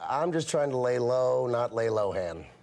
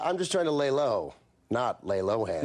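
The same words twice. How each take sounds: First: It runs on with no pause before the punchline. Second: There is a pause before the punchline. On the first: The speaker calls it wrong. "There was no pause" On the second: The speaker calls it right. "try it with the pause"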